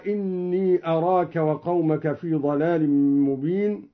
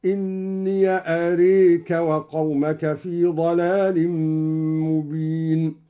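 First: Said in the usual way. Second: إني as "inniya", أريك as "areeka" with e; slow recitation, open إني with an a and tilt أريك to e; open ya, imala. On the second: Shown as a demonstration. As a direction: say إني "inniya" and bend أريك towards "areka". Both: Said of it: "فتح الياء وأمال الألف".

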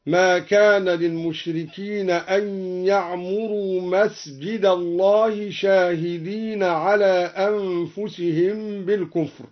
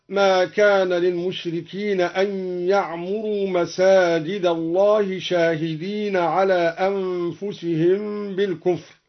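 First: يعمروا مسجد الله with masjid singular, slow. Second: Said in the usual way. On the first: Shown as a demonstration. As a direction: say مسجد, one mosque, not masajid. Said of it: "هكذا". (مسجد على الإفراد بإسكان السين) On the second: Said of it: "قرأ الدوري بإسكان السين".

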